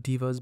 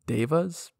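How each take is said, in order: First: The word sounds like the English word diva. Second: The word does not sound like diva. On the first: The speaker calls it right. "I don't really like the pronunciation of divas because, you know, it sounds like diva" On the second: The speaker calls it wrong. "I typically usually prefer to call them devas"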